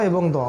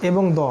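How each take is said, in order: Both takes have the same delivery.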